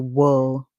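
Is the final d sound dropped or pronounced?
dropped. The word ends on the L, no d. "the Americans would say whirl"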